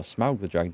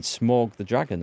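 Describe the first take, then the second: First: Smaug said with an ow sound, like "Smowg"; corrected pronunciation. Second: Smaug said with an aw sound, "Smawg"; first pronunciation. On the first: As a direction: say Smaug rhyming with cow. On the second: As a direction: say Smaug rhyming with log. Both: Real, not acted. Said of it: "or Smaug the Dragon".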